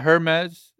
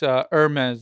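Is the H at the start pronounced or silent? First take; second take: pronounced; silent. First: The initial H sound is pronounced. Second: The initial H sound is silent. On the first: The speaker calls it wrong. "It's not Hermes" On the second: The speaker calls it right. "It's Hermes, I believe"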